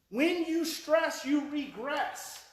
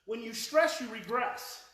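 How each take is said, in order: First: "When you stress, you regress" slow, high and loud, each word weighted; slow emphatic repeat. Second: Said in the usual way. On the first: Shown as a demonstration. Speaker hammers the lesson to listeners, "When you stress, you regress" slow and emphatic.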